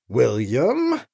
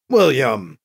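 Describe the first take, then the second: First: Lower, warning rise on the name; displeased. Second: Low, firm, falling rebuke; angry. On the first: Anita reproves Gentry with just his name, displeased. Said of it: "that tone of voice ... volumes of displeasure". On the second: Anita rebukes Gentry for his teasing, angry. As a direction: cut him off with the name, angrily. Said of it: "Anita sounded authentically angry now". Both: A narrator's reading.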